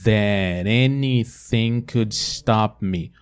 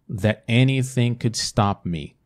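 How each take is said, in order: First: The T of that links into anything. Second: The T of that is held before anything. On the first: "vou fazer sem conectar e conectando" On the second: "com T paradinho aqui"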